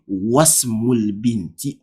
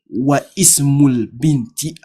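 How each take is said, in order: First: 'Wa' runs straight into the s sound. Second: A glottal stop separates 'wa' and 'ismul'. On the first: The speaker calls it right. "I will say wasmul binti. ... You are jumping the hamza there" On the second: The speaker calls it wrong. "I will not say"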